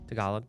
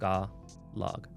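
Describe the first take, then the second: First: The word is said at normal speed. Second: The word is said slowly, syllable by syllable.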